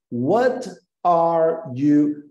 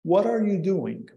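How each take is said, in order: First: What are you split apart, every word said separately and very slowly. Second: What are you doing? run smoothly together; linked flow. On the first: Teacher mimicking how learners over-pronounce each word. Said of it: "queremos pronunciar cada palavra". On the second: Teacher contrasting linked speech with word-by-word. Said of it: "as palavras vão se ligar". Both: Shown as a demonstration.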